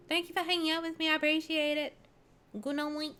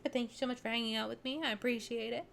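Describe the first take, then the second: First: Higher, fast cutesy thanks. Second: Said in the usual way. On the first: Shown as a demonstration. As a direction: chirp it sweetly. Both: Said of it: "goodbye said again differently".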